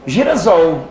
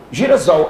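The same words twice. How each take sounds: First: Girasol said with a sharp s, like the snake hiss; hard s sound. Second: Girasol said with a buzzing z, giri-ZOL; soft z sound. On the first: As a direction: say Girasol with a hissing s, not a buzz. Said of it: "Então não é girassol". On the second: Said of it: "Que palavra é essa?". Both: Shown as a demonstration.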